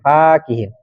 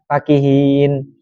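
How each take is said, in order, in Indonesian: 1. Vokal pertama dibaca panjang. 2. Vokal pertama dibaca pendek. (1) "Jadi fa-nya panjang"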